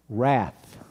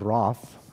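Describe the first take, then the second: First: The word is said in an American accent. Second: The word is said in a British accent.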